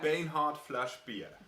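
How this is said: It is said in Low German dialect.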